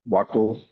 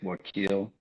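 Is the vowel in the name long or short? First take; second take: short; long. First: The vowel in the second syllable is kept short. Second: The vowel in the second syllable is drawn out long. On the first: "some people pronounce it Wakil" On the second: "the I you elongate it, so it's like Wakil"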